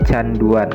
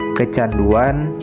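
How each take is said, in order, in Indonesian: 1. Kata itu dimulai tanpa suku kata ke. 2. Kata itu dimulai dengan suku kata ke.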